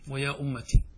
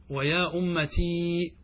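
First: Short "ti" closing أمتي, falling; ya dropped. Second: Slow, final ee of أمتي held long; wrong added ya. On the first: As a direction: end أمتي on a short i, "ummati". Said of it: "فنحن نحذف الياء". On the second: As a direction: drag أمتي out to a long "ummatiii". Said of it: "لا تجمع بين الياء والتاء". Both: Shown as a demonstration.

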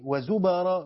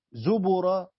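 First: وزبرا said slowly as "wa-zubara"; fatha on the ب. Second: زبرا said slowly as "zubura"; damma on the ب. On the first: Teacher shows students the second reading, fatha on the ب in وزبرا. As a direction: say وزبرا with a after the ب. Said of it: "بفتح الباء". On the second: Teacher shows students the first reading, damma on the ب in زبرا. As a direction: say زبرا with u after the ب. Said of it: "بضم الباء". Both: Shown as a demonstration.

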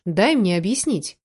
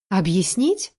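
First: Said in the usual way. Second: Scornful questioning rise; incredulous echo. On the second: A narrator's reading. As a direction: throw the word back as a question. Scornful echo, then she snorts. (недоверчивый переспрос)

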